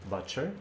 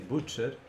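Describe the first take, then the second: First: The first vowel is an uh sound. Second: The first vowel is an oo sound. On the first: This is how English speakers say it. "you would say butcher" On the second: This is how a Slavic speaker says it, phonetically. "I would say butcher because you is in a country is you"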